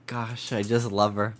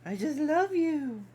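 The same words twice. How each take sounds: First: Said in the usual way. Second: Very high cooing pet voice. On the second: Real, not acted. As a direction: coo lovingly at a puppy. Cooing at dog.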